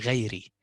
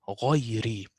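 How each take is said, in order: First: The first consonant is light and plain. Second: The first consonant is heavy and emphatic. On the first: The speaker calls it wrong. "Don't say غيري. غيري is too bad to say" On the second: The speaker calls it right. "So here I will say غيري"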